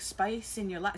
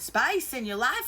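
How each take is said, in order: First: It is said in the speaker's plain accent. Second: It is said in a Southern twang.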